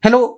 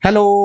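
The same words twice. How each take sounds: First: The word is said short and ends abruptly. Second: The word is stretched out and lingers. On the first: The sound stops at once with no lingering. "ऐसे नहीं" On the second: The sound lingers from many reflections. "Sound थोड़ा लंबी देर तक persist किया, तुरंत खत्म नहीं हो गया"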